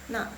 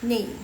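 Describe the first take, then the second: First: The vowel is an open 'a' sound. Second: The vowel is a mid 'e' sound. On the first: This is the form taught in the textbook. "pinginnya na gitu kan" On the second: This is how native speakers usually say it. "Tapi mereka suka bacanya ne"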